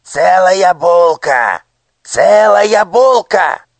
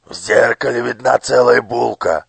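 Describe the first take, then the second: First: Very high, loud, slow shriek of «Целая булка». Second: Louder, smug, hitting «целая»; smirking overseer. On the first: Minister shrieks in triumph at the boy. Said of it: "вскрикнул министр". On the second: Overseer smirks at the mirror's whole loaf. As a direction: smirk as you point out «целая булка». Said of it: "усмехнулся надсмотрщик". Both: A narrator's reading.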